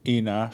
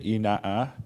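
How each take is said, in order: First: The final vowel is short, as in Nullaro dialect. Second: The final vowel is long, as in Kaikuk dialect.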